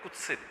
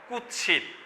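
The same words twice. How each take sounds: First: The middle has a doubled ch sound. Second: The middle has a t and s sound. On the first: This is the everyday colloquial form. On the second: This is the original Sanskrit form.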